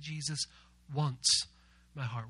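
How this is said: The word wants is stressed. There is a real desire to have it. "We're going to put the emphasis on the word once"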